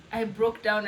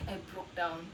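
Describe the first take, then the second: First: Said in the usual way. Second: Soft, low, hushed "I broke down"; almost under the breath, letting it drop; quiet confession. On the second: Real, not acted.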